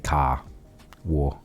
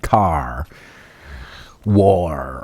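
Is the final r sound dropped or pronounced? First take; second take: dropped; pronounced. First: The r sounds are dropped. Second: The r sounds are strongly pronounced. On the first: This is how the speaker's own people say it. "we just say" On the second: This is how people in the States say it. "the accentuation on R's"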